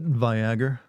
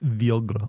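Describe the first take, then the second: First: It is said in a plain American accent. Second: It is said in a European accent. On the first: The speaker calls it wrong. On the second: The speaker calls it right.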